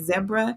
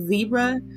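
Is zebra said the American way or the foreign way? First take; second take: foreign; American. First: The word is said the way other countries say it. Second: The word is said the American way. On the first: "in other countries, they say zebra" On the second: "and we say zebra"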